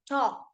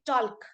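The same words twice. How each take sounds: First: The L sound is silent in the word. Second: The L sound is pronounced in the word. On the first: The speaker calls it right. "my L is silent. ... we say talk" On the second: The speaker calls it wrong. "We don't say talk"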